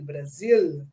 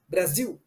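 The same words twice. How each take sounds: First: The final L is pronounced as a clear L. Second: The final L sounds like a 'u' vowel. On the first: This is how it is said in Portugal. "en Portugal, ça, il faut prononcer le L" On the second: This is how it is said in Brazil. "au Brésil, les ailes qui sont dans la position finale, on fait you, you, you"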